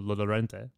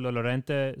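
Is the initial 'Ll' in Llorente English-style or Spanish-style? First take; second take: English-style; Spanish-style. First: The opening double L is a plain English L. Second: The opening double L has a Spanish sound. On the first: "like any Westerner, they would say" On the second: "That was a nice double L"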